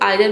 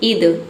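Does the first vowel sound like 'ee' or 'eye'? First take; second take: eye; ee. First: The first vowel sounds like 'eye'. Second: The first vowel sounds like 'ee'. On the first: "आइदर भी पढ़ते हैं"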